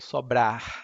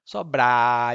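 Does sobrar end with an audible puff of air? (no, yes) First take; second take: yes; no. First: The word ends with a breathy puff of air. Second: The word ends without any puff of air. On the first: "sobrar is like with a puff of air" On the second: "sometimes there is no, it's just sobrar"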